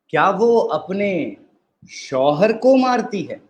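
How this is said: The stress falls on the word शौहर. "अब हम चौथे पे एम्फसाइज़ करेंगे।"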